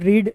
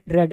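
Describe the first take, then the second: First: The vowel is long, like 'reed'. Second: The vowel is short, like 'red'. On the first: It is the present form. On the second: It is the past form.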